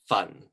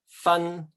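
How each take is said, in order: First: The syllable carries Cantonese tone four. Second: The syllable carries Cantonese tone one. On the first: It means to burn something. "the fourth one" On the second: It means to separate. "if you put it in nine different tones in Cantonese"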